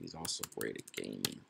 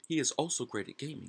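First: The words 'he is' are joined as 'he's'. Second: The words 'he is' are said separately. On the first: It sounds natural and conversational. The speaker calls it right. "he's actually sounds good" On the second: It sounds a bit dull and stiff. The speaker calls it wrong. "It sounds a little bit drab"

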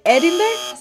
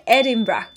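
First: The last syllable does not sound like 'bra'. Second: The last syllable sounds like 'bra'. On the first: The speaker calls it wrong. "No se dice Edinburgh" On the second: The speaker calls it right. "se dice Edinburgh, ... bra"

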